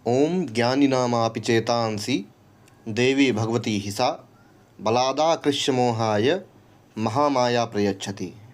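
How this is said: The verse is read with pauses into four parts. "हर line में एक pause है"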